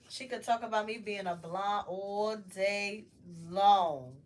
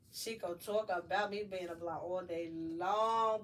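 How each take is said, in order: First: Long shouted loud at the end; loud punch on long; stress on long. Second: Said in the usual way. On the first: Real, not acted. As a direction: build up and slam the word long. Punching the last word.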